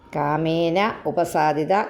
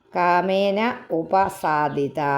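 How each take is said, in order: First: The two words are said separately, unmerged. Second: The same.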